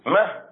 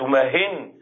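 First: The word ends without a final n sound. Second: The word ends with an added n sound. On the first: Stop this particular action. "مه أي كف عن هذا الفعل" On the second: Stop every action. "أما إذا قلت ماهن أي كف عن كل فعل"

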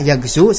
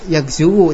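First: The word ends on a plain long 'u'. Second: The word ends with an extra syllable 'wu'. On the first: The speaker calls it right. "namun bacaannya yagzu" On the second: The speaker calls it wrong. "tidak dibaca yagzuwu"

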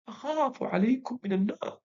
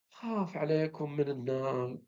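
First: It is said in a strong, lively voice. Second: It is said in a faint, weak voice. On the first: The speaker calls it right. "طريقة ثانية ويطلع ممتاز" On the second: The speaker calls it wrong. "بصوت خافت ومنعت"

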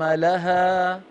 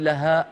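First: The final long vowel fades out gradually. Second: The word ends with an abrupt glottal stop. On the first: The speaker calls it right. "لها حرف مد يتلاشى شيئا فشيئا" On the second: The speaker calls it wrong. "لا تختمي بهمزة يا أختي أم عبد الله. لا تقولي لها"

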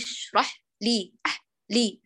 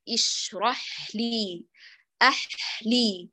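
First: The h sound is cut off immediately. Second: The h sound flows fully into the next sound. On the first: The speaker calls it wrong. "لو قطعتيه في البداية قلت هكذا" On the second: The speaker calls it right. "الصواب"

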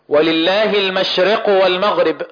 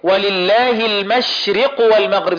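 First: The vowel after r sounds between a and i. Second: The vowel after r is a clear full i. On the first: The speaker calls it wrong. "خطأ، الراء ليست مكسورة كسرة كاملة" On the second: The speaker calls it right. "تكسر الراء كسرة كاملة"

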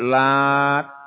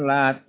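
First: The final t is doubled and held longer. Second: The final t is single and short. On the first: "Bisa pakai tasdid" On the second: "bisa dibaca dengan lat ringan"

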